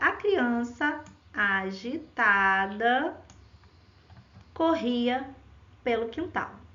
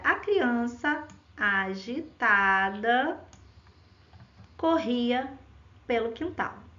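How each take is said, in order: First: There are pauses before and after agitada. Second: There are pauses before and after agitada.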